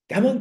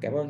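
First: The thanks sounds warm and sincere. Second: The thanks sounds offhand and careless. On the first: The speaker is truly grateful. The speaker calls it right. "Nhưng mà thái độ bây giờ có thể khác" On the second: The thanks is only a polite formality. The speaker calls it wrong. "Vừa nói vừa đi à"

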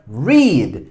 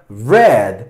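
First: The vowel is long, like 'reed'. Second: The vowel is short, like 'red'. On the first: The action happens in the present. "En presente se pronuncia read" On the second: The action happened in the past. "En pasado se pronuncia read"

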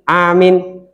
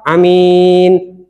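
First: The first vowel is long, the second short. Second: The first vowel is short, the second long. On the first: "A-nya panjang, min-nya pendek" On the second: "A-nya pendek, mim-nya panjang"

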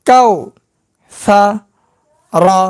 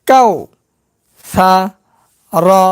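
Both takes have the same delivery.

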